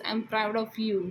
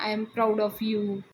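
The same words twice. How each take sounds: First: Said in the usual way. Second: Put-on very slow, drunken drawn-out praise; tipsy Anna praising his son, slurred and slow; drunk father. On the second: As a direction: drag it out like a drunk proud father.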